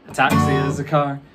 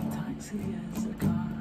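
First: It is said fast. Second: It is said quietly.

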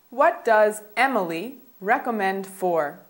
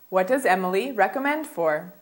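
First: The sentence is spoken at a slower pace. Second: The sentence is spoken at a faster pace.

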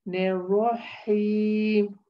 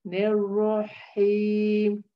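The two takes are said the same way.

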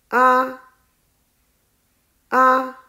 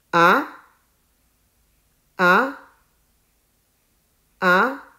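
First: The pitch stays high and level. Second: The pitch rises from middle to high. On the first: "第一声是平的，读作啊。" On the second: "第二声也叫做阳平，声音是向上"

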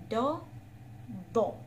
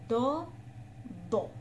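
No difference in how they are said.

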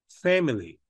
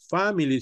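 First: The first vowel is a front 'eh'-like sound. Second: The first vowel is an open 'ah' sound. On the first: The speaker calls it right. "sino es family" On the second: The speaker calls it wrong. "pero no es family"

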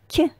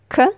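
First: The consonant is soft and palatalized. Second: The consonant is hard, not palatalized. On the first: "then soft consonant" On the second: "First, hard consonant"

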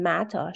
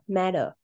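First: The middle consonant is a clear T sound. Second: The middle consonant is a soft D sound. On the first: "doesn't say" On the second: "She says"

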